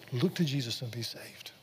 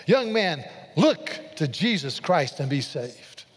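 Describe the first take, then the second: First: Soft, breath-led understatement of a preacher's line; hushed retelling. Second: Emphatic, drawn-out preaching call; retold preacher's shout. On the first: Retold or imitated. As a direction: softly quote it, nearly whispered. Quiet restatement of the shouted line. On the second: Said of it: "And then he shouted".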